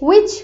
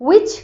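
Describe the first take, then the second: Both takes have the same delivery.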